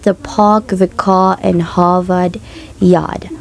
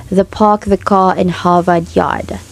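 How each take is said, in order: First: "car" and "Yard" said as "kah" and "yahd" with no R; slow, non-rhotic Harvard Yard line; Boston R-dropping demo. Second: Said in the usual way. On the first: Shown as a demonstration. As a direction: drop the R's, Boston style. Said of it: "they pronounce this". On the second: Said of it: "the infamous phrase".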